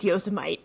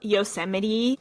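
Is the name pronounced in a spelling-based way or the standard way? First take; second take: spelling-based; standard. First: The name is said as read from spelling. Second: The name is said the standard way. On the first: This is how it was read in books. The speaker calls it wrong. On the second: This is the place's real name. The speaker calls it right.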